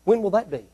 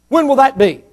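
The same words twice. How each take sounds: First: Said in the usual way. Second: "When" pushed higher and louder; pressing question. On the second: Shown as a demonstration. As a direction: demand an answer, hitting "When".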